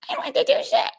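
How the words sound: It is said in a high-pitched voice.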